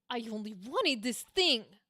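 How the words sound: It sounds desperate and frustrated.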